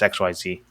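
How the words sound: The last letter is said as zee. The speaker calls it right. "he's American. It's X Y Z"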